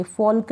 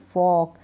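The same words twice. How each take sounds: First: फॉल्क with a clear L before the K; L wrongly sounded. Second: फॉक with the vowel straight into K; silent L. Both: Shown as a demonstration. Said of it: "फॉल्क नहीं".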